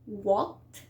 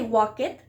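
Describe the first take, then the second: First: The ending adds no extra syllable. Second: The ending is an extra syllable. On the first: The speaker calls it right. "We are like not pronouncing the e" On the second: The speaker calls it wrong. "We don't say walk it"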